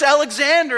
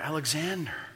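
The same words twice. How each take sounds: First: It is said loudly and strongly. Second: It is said a little louder.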